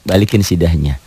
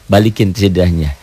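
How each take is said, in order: Both takes have the same delivery.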